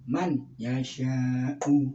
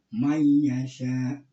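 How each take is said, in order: First: The n is pronounced clearly before the y. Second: The n merges into the following y sound. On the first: The speaker calls it right. "Kalau yang benar itu man yasha'u" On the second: The speaker calls it wrong. "kebanyakan ya orang membaca mayyasha ini salah"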